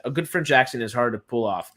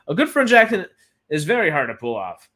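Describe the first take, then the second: First: Said in the usual way. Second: GOOD French accent started high and loud, with a push on VERY; "good" pitched up and loud, "very" stressed; emphatic restatement. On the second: Real, not acted. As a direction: repeat it emphatically, punching GOOD high and leaning on VERY. Repeats it adding very for emphasis.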